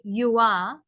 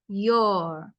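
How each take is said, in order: First: It is said as two full separate words. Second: It is said as one short contracted word. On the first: The speaker calls it wrong. "do not say you are" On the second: The speaker calls it right. "You must read it as your"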